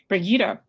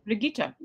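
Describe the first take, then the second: First: The name is said with a non-German pronunciation. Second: The name is said with a German pronunciation. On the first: The speaker calls it wrong. "if I've been saying her name wrong" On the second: The speaker calls it right. "it's German pronunciation"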